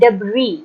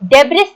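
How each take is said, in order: First: The word ends without an s sound. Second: The word ends with an s sound. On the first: The speaker calls it right. "इसको हम pronounce करते हैं डेब्री" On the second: The speaker calls it wrong. "डेब्रिस नहीं बोलना इसको"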